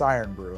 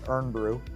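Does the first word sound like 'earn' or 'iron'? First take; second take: iron; earn. First: The first word sounds like two syllables, 'iron'. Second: The first word sounds like one syllable, 'earn'. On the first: This is how it is supposed to be said. "I guess it's Iron Brew" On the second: This is how it looks when read. "my brain says Earn Brew"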